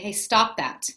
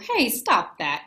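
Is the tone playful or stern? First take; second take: stern; playful. First: It is said in a stern, serious tone. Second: It is said in a silly, playful tone. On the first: The words seem like a real reprimand. "you might read it the way I just said it" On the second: The speaker is just joking around. "I'm smiling and I say a silly tone of voice"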